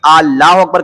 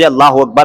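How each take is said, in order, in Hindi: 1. Allahu का पहला स्वर खींचकर लंबा है। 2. Allahu का पहला स्वर छोटा है। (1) "यानी कि अलिफ को खींच के पढ़ देते हैं" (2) "जैसे लफ्ज़ अल्लाहु अकबर है"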